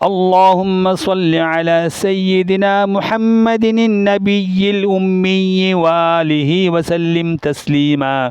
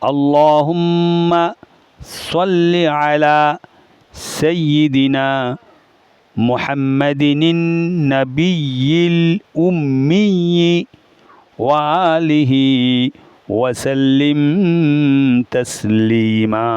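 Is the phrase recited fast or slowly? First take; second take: fast; slowly. First: The phrase is recited quickly in one breath. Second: The phrase is recited slowly and carefully. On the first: "তাড়াতাড়ি পড়তে পারবেন ... এক নিঃশ্বাসে একবার দুইবার বলা যাবে" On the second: "আমি আস্তে আস্তে বলবো"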